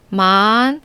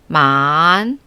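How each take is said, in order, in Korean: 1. 음높이가 중간에서 높게 올라가요. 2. 음높이가 낮게 내려갔다가 다시 올라가요.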